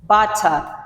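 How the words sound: A British accent with a crisp t sound. "the British people pronounce it as butter"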